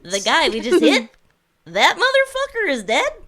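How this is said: The voice rises at the end like a question.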